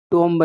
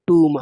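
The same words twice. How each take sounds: First: टोम्ब with the final b sounded; wrong pronunciation. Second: टूम said with a silent b; correct pronunciation. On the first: Teacher warning students off a mispronunciation, टोम्ब with audible b. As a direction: voice the b at the end of टोम्ब. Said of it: "नहीं है". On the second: Teacher showing students the correct way, टूम with silent b. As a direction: end टूम on the m sound. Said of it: "जो correct pronunciation है". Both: Shown as a demonstration.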